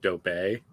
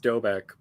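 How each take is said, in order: First: The final K sound is left silent. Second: The final K sound is pronounced. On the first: The speaker calls it wrong. "what language has silent K's?" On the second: The speaker calls it right. "it's pronounced Dobek"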